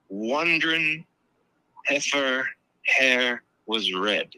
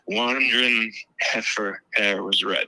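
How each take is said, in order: First: The phrase is said slowly and drawn out. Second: The phrase is said quickly and run together. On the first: "if you say that slow" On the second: "because that's how he pronounces it"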